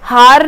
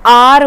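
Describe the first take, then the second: First: The word starts with an audible h sound. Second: The word starts with a vowel, no h sound. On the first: The speaker calls it wrong. "हार नहीं बोलते इसको" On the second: The speaker calls it right. "इसकी जो pronunciation है वो आर होती है"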